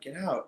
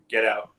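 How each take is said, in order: First: It is said in a calm, ordinary tone. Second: It is said in a forceful, commanding tone.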